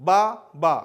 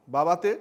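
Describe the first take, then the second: First: বা, বা said as two separate beats with a pause; split into syllables. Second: Said in the usual way. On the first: Shown as a demonstration. Teacher showing students the two syllables, beat by beat. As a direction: break the word into its two syllables. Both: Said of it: "দুবার আমরা দুটো ঝোঁকে উচ্চারণ করছি".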